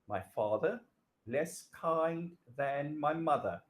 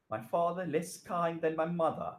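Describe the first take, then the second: First: Slow down and space out less kind; slow, careful reread. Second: Said in the usual way. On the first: Shown as a demonstration. Teacher rereads the faulty sentence for students, slow and deliberate. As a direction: read it again slowly so students spot the error. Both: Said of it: "What's the problem there?".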